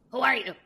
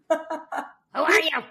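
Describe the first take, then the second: First: Put-on gruff Yiddish-accented question. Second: Put-on Yiddish accent. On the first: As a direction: ask it like an old Yiddish speaker. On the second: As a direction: bark it like a suspicious old Yiddish speaker. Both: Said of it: "some guy in a thick Yiddish accent in Russian".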